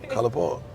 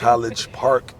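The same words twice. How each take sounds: First: The G in College is left out. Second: The G in College is clearly pronounced. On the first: The speaker calls it right. "you leaving the G out" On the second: The speaker calls it wrong.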